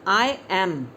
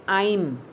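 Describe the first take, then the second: First: Both words are said separately and fully. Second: The words merge into one short syllable.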